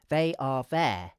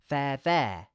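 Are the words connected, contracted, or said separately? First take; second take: separate; contracted. First: Each word is said separately, unlinked. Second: They are is shortened into one syllable. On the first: "we could say the words separately" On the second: "we can pronounce the phrase using a contraction"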